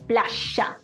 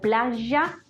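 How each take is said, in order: First: The middle consonant is strident with strong friction. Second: The middle consonant is soft and gentle. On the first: This is how River Plate speakers say it. "muchísimo más estridente, muchísimo más fuerte" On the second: This is how a speaker with general yeísmo says it. "de una forma más suave"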